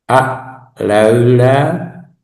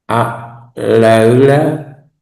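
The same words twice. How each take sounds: No difference in how they are said.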